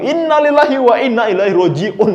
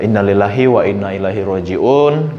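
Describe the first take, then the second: First: It is said in an upbeat, cheerful tone. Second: It is said in a gently sad tone. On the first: The news seems to be welcomed rather than mourned. The speaker calls it wrong. "jangan kebalikannya" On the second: Sympathy is shown in a fitting way. The speaker calls it right. "kita harus berekspresi yang sedih"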